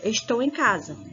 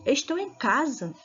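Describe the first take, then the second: First: It is said as a flat, finished statement. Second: It is said with surprised, enthusiastic astonishment.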